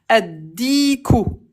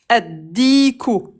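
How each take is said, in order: The two takes are said the same way.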